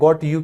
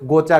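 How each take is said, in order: First: The two words are said fully and separately. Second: The words blend into one word with a ch sound. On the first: "गॉट यू की जगह" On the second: "अंग्रेज सिर्फ गोचा कहते हैं"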